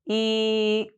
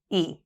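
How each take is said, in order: First: The vowel is held for about one second. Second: The vowel is said at normal short length. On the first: "Hold the sound for one second" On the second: "Pronounce the sound at standard speed"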